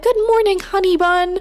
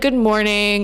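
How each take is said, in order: First: It is said warmly and affectionately. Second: It is said flatly and nonchalantly.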